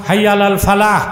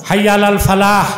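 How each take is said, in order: The two takes are said the same way.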